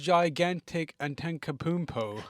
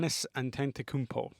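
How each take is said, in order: First: The name sounds like 'gigantic and Tenkapoompo'. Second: The name sounds like 'Giannis Antetokounmpo'. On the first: The speaker calls it wrong. "she's like, bro, who is gigantic and Tenkapoompo?" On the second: The speaker calls it right. "what is the correct pronunciation of his name"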